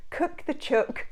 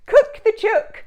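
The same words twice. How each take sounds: First: A light Aussie echo of cook the chook, higher; mild Australian accent. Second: Put-on cook the chook belted much higher and louder, in a broad Australian accent; hammed-up Australian accent. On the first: Retold or imitated. Repeating the MasterChef judge, in a light Australian accent. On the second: Cheering along with the Aussie MasterChef judge, in a loud, high Australian accent. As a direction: crow cook the chook like an excited Aussie chef. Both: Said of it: "a little Australian slip".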